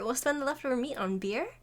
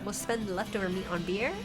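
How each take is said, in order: First: It is read in a Valley Girl accent. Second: It is read in the speaker's ordinary voice. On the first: The speaker calls it right. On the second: The speaker calls it wrong.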